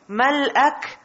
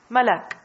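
First: A glottal stop is heard before the final syllable. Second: The syllables run together with no glottal stop. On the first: This is the original, fuller form of the word. "is it difficult to pronounce Mal'ak?" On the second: This is the simplified form that is easier to say. "Why not simply say Malak?"

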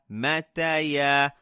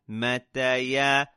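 No difference in how they are said.

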